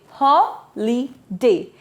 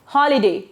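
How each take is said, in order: First: Holiday slowly split into three syllables. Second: Said in the usual way. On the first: Shown as a demonstration. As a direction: break Holiday into three beats with clear pauses. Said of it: "Don't forget to break them". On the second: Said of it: "It's a three syllable word".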